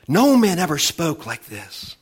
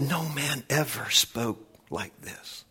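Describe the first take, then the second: First: NO launched high, then falling through the line; emphatic proclamation. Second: Slow, soft and weighty; hushed awe. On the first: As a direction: hit "No" hard and high. Preacher repeats quote emphatically. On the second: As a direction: draw it out, letting the voice sink away. Preacher quotes awed crowd, slowly. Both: Acted.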